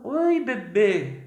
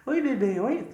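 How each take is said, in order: First: Put-on higher, slow sing-song greeting to a baby; baby talk. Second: Calling a dog. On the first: Adult greeting a baby in a cooing baby voice. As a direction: coo at the baby. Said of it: "você olha ali e fala". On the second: Retold or imitated. Preacher jokes he greets the baby like calling a dog. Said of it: "Pareceu chamando um cachorro".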